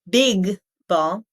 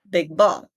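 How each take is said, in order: First: The G is fully released with air. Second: The G is held without releasing air. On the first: The speaker calls it wrong. "Not big ball" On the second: The speaker calls it right. "but big ball... I sort of eat up that first sound"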